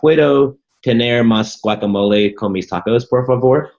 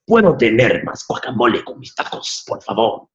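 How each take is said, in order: First: It is said with an American English accent. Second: It is said with a Mexican Spanish accent. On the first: The speaker calls it wrong. "the way they were spelled as if they were English words with my American English accent" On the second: The speaker calls it right. "try to sound like a Mexican"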